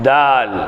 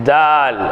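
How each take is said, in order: The two takes are said the same way.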